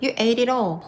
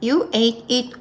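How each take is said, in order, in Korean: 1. 단어들이 소리가 이어져서 하나로 나와요. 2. 단어마다 따로 말해요, 이어서 안 해요.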